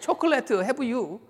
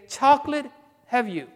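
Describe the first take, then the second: First: It is said with a Korean accent. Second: It is said with plain English pronunciation.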